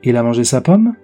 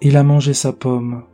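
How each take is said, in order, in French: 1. La mélodie monte à la fin, comme une question. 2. La mélodie descend tout du long, avec un ton de regret. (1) "cela devient immédiatement une phrase interrogative puisque la mélodie devient ascendante" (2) "l'intonation est uniquement descendante et peut faire penser à l'expression d'un regret"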